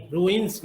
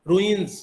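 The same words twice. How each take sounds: First: Ruins ending in a voiceless s; wrong s ending. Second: Ruins ending in a voiced z. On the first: Teacher showing what to avoid, ruins with final s. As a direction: say ruins with a hissed s, not z. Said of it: "not स". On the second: Teacher correcting the plural, ruins with final z. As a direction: say ruins with a buzzing z at the end. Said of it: "यहाँ पे ज की तरह". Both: Shown as a demonstration.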